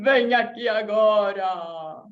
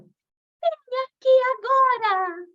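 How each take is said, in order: First: It is said in a spooky ghost voice. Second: It is said in a high, delicate fairy voice.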